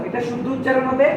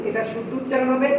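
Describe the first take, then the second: Both takes have the same delivery.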